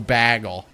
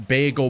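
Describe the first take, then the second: First: The word is said with a Canadian pronunciation. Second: The word is said in the speaker's ordinary pronunciation.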